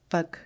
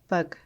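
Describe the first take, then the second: Both takes have the same delivery.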